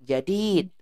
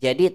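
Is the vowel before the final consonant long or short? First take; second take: long; short. First: The second vowel is held long. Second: The second vowel is said short. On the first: The speaker calls it right. "tapi jadid. Wajib kita panjangkan ya" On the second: The speaker calls it wrong. "Bukan jadid"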